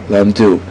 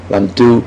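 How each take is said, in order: The two takes are said the same way.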